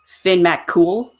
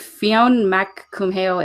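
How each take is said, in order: First: The surname sounds like the word cool. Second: The surname is sounded out as it is spelled. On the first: The speaker calls it right. "it's actually like Finn Mac Cool" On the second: The speaker calls it wrong. "looks like Fionn Mac Cumhale"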